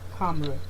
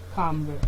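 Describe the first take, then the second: The two takes are said the same way.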